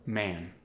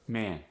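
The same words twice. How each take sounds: First: Said in the usual way. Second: "man" with a tight, raised A; tense the vowel in "man", toward "meh-an"; Philadelphia-accented "man", A raised; Philly short A. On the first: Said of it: "give you an example". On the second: Shown as a demonstration. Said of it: "They're tighter, more raised".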